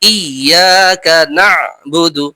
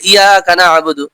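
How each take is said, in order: First: The 'ya' sound is doubled and forceful. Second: The 'ya' sound is short and light. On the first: The speaker calls it right. "তাসদিদ ওয়ালা অক্ষরকে একটু জোর সর উচ্চারণ করতে হয়" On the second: The speaker calls it wrong. "অনেক বলে ইয়াকা নাবুদু, ইয়াকা নাবুদু না"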